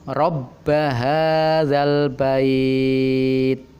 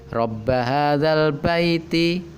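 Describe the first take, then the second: First: It stops on the word, vowel drawn out long. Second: It runs on with a vowel, kept short. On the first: The reading pauses at the end of the verse. "Al bait ini kita panjangkan dua, empat, atau enam boleh, karena kita wakofkan" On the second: The reading continues into the next words. "Kalau itu dibaca wasol"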